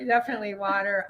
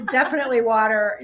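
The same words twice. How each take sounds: First: Said in the usual way. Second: Quick, laughing "Definitely water"; laughing agreement. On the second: Real, not acted.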